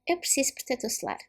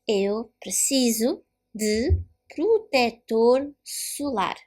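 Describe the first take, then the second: First: It is said fast with sounds dropped. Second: It is said slowly with every sound clear. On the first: "And faster, just like the Portuguese, how the Portuguese say in the real world, faster eating words and letters" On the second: "Now let me say this slowly"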